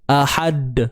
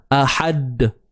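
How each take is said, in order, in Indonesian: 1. Huruf d terakhir dilepas dengan lantunan. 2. Huruf d terakhir dilepas dengan lantunan.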